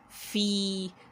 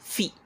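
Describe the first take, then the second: First: The vowel is drawn out long. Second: The vowel is short and clipped. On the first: The speaker calls it right. "it is there for elongation" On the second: The speaker calls it wrong. "Not just fi"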